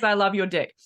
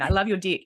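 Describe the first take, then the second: First: It is said in the speaker's usual accent. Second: It is said in an Australian accent. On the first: "Is that your um, New Zealand accent?" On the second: "I'll say it with my Australian accent"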